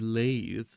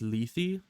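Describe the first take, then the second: First: The first syllable sounds like 'lay'. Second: The first syllable does not sound like 'lay'. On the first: The speaker calls it wrong. "L E would be like lay, and then T H E would be the" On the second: The speaker calls it right. "I think it's Lethe"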